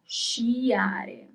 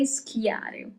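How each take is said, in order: First: The word begins with a soft sh sound. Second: The word begins with a hard sk sound. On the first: The speaker calls it right. "So now we're working on she" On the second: The speaker calls it wrong. "So do not say schiare. that doesn't exist"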